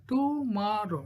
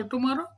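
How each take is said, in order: First: "Tomorrow" broken as to-mo-rrow; split into syllables. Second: Said in the usual way. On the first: Shown as a demonstration. Teacher showing three syllables, "Tomorrow" said beat by beat. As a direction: say "Tomorrow" in three separate beats. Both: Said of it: "three syllable".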